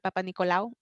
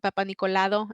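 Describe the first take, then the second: First: The ending is 'lau' with no d sound. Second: The ending has an added d sound, 'lado'. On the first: The speaker calls it right. "en vez de" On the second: The speaker calls it wrong. "unas palabras un poquito que no estaban muy correctas"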